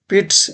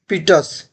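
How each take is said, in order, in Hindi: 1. इसमें एक अक्षर है, t और s जुड़े हुए हैं। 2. इसमें दो अक्षर हैं, s से पहले एक स्वर है। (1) "इसको हम लोग पिट्स पढ़ेंगे" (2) "इसको हम पीटस नहीं"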